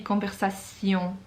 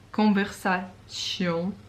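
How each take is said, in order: First: The ending is said with a 'sion' sound. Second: The ending is said with a 'tion' sound. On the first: The speaker calls it right. "it should be conversation. ... how much more French that sounds" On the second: The speaker calls it wrong. "like T I O N, tion"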